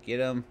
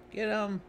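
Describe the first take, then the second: First: Said in the usual way. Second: High, urgent call to attack. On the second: Pretend. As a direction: yell it to your party. Calling out to get him.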